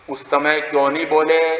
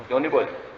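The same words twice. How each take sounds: First: Said in the usual way. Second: Softer, falling question; hushed repeat. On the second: Acted. Preacher repeats the elder's question to listeners, hushed.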